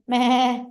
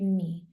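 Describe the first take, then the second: First: The vowel is changed to sound like a bleat. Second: It is said as the ordinary word 'me'. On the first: "if we just tweak the pronunciation, it's like meh" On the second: "in English, you say me"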